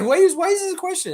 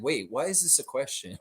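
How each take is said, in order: First: Much higher, louder and faster, baffled and mocking; playing OG, stunned by a dumb reporter question; incredulous imitation of OG. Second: Said in the usual way. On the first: Host imitating OG's baffled reaction, loud high mock disbelief. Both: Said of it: "It's like".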